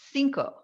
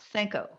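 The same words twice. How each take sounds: First: It is pronounced the Spanish way. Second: It is pronounced with a French-like sound. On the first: The speaker calls it right. "when you say the word C I N C O, cinco" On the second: The speaker calls it wrong. "not Cinco"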